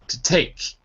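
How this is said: The stress falls on the word take. The speaker calls it right. "It's on the second, so it's to take"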